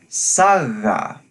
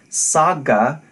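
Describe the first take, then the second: First: The g is a soft fricative. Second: The g is a hard stop. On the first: The speaker calls it right. "but instead a more gentle fricative" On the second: The speaker calls it wrong. "It's not a hard stop"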